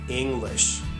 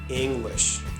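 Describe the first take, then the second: The two takes are said the same way.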